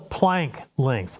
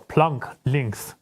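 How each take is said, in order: First: Planck has an English vowel, as in bank. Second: Planck has a German open 'ah' vowel.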